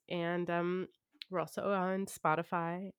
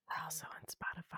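First: It is said in a normal speaking voice. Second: It is said in a whisper. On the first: "I'm boring myself" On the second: "That's a whisper"

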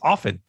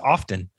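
First: The T sound is silent in the middle. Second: The T sound is pronounced in the middle.

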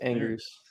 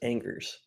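First: The name is said with French sounds. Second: The name is read out with English sounds. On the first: The speaker calls it right. "Gotta get that right" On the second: The speaker calls it wrong. "it's not just Angers"

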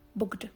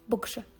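First: The middle consonant is pronounced 'j'. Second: The middle consonant is pronounced 'sh'. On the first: "والبعض من أهل الخليج ينطقونها بقجة" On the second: "تنطق بقشة"

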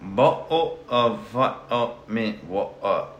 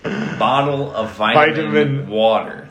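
First: It is said in a British accent, every syllable spoken. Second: It is said in an American accent, heavily reduced. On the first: "That's 8 syllables, dude" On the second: "That's only 3 in American English"

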